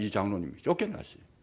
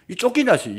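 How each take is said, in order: First: Said in the usual way. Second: 쫓겨났어요 called out higher and louder; preacher's raised cry on 쫓겨났어요; loud exclamation. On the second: Shown as a demonstration. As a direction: proclaim 쫓겨났어요 with force.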